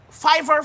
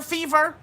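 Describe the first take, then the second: First: "Fiverr" rhyming with diver; Fiverr with long I. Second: "Fever" rhyming with beaver; Fever with long E. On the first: Host checking the site's name, "Fiverr" said FIVE-er. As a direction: say "Fiverr" as FIVE-er, high, questioning. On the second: Host checking the site's name, "Fever" said FEE-ver. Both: Real, not acted.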